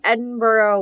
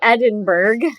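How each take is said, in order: First: The name is said the Irish way. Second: The name is said the Texas way. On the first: The speaker calls it wrong. "I pronounced it the Irish way" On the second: The speaker calls it right. "So I believe that should be Edinburgh"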